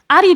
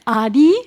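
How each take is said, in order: First: The final i sound is short. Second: The final i sound is long. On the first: It means ant. The speaker calls it wrong. "I said it wrong uh, because Ari is ant in Japanese" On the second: It is the speaker's name. The speaker calls it right. "You extend the I sound"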